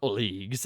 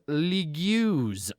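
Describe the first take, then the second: First: The word is said with its usual pronunciation. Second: The word is sounded out letter by letter.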